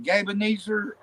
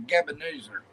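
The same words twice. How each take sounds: First: "Gabe" with a long A, as in babe; first pronunciation. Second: "Gabe" with a short vowel, like GEB; second pronunciation. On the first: Asking which name is correct, first long-A pronunciation. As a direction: say "Gabe Ebenezer" with a drawn GAYB. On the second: Asking which name is correct, second short-vowel pronunciation. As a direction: say "Gabe Ebenezer" run together as GEB-uh-NEE-zer. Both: Shown as a demonstration. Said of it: "the first one or second one".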